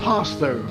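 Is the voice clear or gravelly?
clear. The voice is clear, not gravelly. The speaker calls it right. "Much better"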